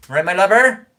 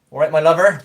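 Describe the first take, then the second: First: Loud, high regional-English greeting, LOVER swooping up; dialect greeting, higher. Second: Loud regional-English greeting, tune falling on LOVER; dialect greeting. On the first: Streamer repeats the local greeting higher, regional accent, LOVER rising. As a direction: sing out LOVER loudly in dialect, ending upward. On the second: Streamer shows off a local greeting, loud regional accent, LOVER falling. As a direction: call out LOVER loudly in dialect, ending downward. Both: Acted.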